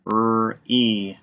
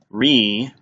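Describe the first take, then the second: First: R and E said as separate drawn-out sounds; tapped-out sounds. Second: Said in the usual way. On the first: Shown as a demonstration. Teacher tapping out a first syllable, segmented. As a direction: sound out R, then E. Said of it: "tap this out". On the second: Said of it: "First open syllable".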